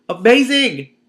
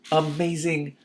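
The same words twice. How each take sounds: First: Loud, high Amazing! squealed; excited shout. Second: Said in the usual way. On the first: Real, not acted. Reader repeats louder.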